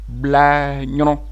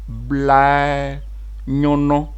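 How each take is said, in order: First: It is said at normal speed. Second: It is said slowly. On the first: "on va prononcer au rythme normal" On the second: "Je reprends lentement"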